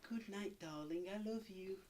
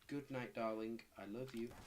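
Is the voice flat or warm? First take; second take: warm; flat. First: It is said in a warm, nice voice. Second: It is said in a flat, robotic voice.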